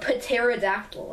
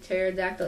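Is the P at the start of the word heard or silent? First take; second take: heard; silent. First: The initial P is pronounced aloud. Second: The initial P is silent. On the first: The speaker calls it wrong. "if it didn't have a silent P, it would be called" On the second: The speaker calls it right. "pronounced the silent P"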